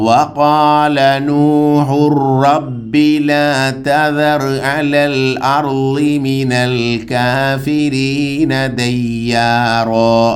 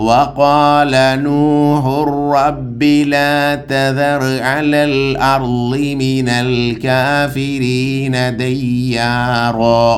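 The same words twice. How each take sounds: The two takes are said the same way.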